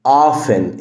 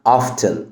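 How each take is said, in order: First: The T sound is left out. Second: The T sound is pronounced. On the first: "ال T هنا silent" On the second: "ممكن تنطق ال T وتقولها often"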